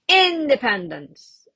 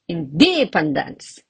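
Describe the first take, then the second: First: The stress is on the first syllable. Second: The stress is on the second syllable. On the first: "See, it sounds really weird" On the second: "Or I can even say"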